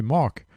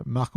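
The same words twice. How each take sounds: First: Put-on "Mark" in an American accent; English pronunciation. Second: "Marc" said the French way, with a rolled r and a crisp k; "Marc" said in plain French; French pronunciation. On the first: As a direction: say "Mark" like a native English speaker. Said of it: "en anglais, c'est Mark". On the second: Retold or imitated. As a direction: say "Marc" as a French speaker would. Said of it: "Marc en français, c'est Marc".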